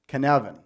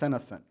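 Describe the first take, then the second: First: The first syllable does not sound like cynic. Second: The first syllable sounds like the start of cynic. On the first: The speaker calls it right. "It's Cynefin" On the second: The speaker calls it wrong. "this word is not pronounced Cynefin, which I hear a lot of people say"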